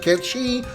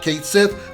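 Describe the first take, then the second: First: The name is said as 'Ketchi'. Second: The name is said as 'Kate Sith'. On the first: This is the original pronunciation. The speaker calls it right. "I'm going to pronounce it Ketchi" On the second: This is how the remake says it. The speaker calls it wrong. "not Kate Sith"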